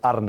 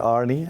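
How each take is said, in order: First: The name is said the Dutch way. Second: The name is said the English way. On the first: This is how the name is said at home. "we in Holland uh, would would call me Arne" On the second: This is how English speakers say the name. "Brendan Rodgers, he, he a few times called me Arnie"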